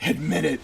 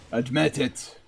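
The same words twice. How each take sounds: First: Lightly put-on accent, not Irish. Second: Softer put-on Irish accent. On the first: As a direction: say it in a mock foreign accent. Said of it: "Wrong accent?". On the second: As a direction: say it quietly with an amateur Irish accent. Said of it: "my Irish accent is not that bad".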